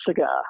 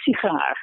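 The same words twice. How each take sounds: First: "cigar" with a reduced schwa first syllable, stress on "gar"; English cigar. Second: "sigaar" with a full vowel in the first syllable, secondary stress; Dutch sigaar. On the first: Explaining English vowel reduction, reduced "cigar". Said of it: "the first syllable is gonna be reduced". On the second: Contrasting Dutch with English, full-vowel "sigaar". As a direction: give "sigaar" a clear full "si". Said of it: "the first syllable is not reduced". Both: Shown as a demonstration.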